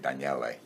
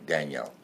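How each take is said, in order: First: The name is said the Italian way. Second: The name is said the American way.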